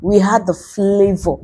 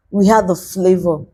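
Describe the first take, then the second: First: We hit as the key word; stress on we. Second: Had hit as the key word; stress on had. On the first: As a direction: push the word We, the rest level. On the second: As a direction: push the word had, the rest level. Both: Shown as a demonstration. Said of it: "We are the flavor the world needs".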